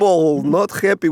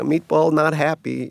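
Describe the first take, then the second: First: It is said in a put-on Russian accent. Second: It is said in the speaker's ordinary accent.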